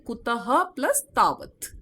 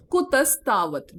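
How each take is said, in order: First: "kutaha plus tavat" split into separate words; divided sandhi. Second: "kutastavat" run together as one word; joined sandhi. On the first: Teacher divides sandhi for students, "kutaha plus tavat" in parts. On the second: Teacher reads the Sanskrit compound, "kutastavat" joined. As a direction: say "kutastavat" with the s linking straight into tavat. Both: Shown as a demonstration. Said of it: "divide sandhi".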